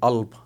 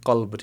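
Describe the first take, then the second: First: The first consonant is silent; it starts with a vowel. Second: The word begins with a k-like consonant. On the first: "इसका जो काफ है वो साइलेंट रहता है" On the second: "लफ्ज़ है कल्ब"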